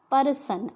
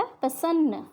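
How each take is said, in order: First: परसन with a full र vowel between प and र; wrong pronunciation. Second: प्रसन्न with प्र as one tight cluster; correct pronunciation. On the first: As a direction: say परसन, splitting the प्र cluster. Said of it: "अगर हम र को पूरा लिख रहे हैं तो उसका उच्चारण". (परसन, प और र के बीच पूरा अ बोलकर) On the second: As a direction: say प्रसन्न, प्र joined with no vowel. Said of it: "हमने वर्ड क्या लिखना था". (प्रसन्न, प्र को जोड़कर बोलें) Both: Shown as a demonstration.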